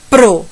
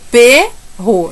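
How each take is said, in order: First: The P runs straight into the R sound. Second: The P is sounded apart, with a vowel after it. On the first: The speaker calls it right. "é pro. Eu junto tudo" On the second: The speaker calls it wrong. "Eu não posso falar P R O ou perro"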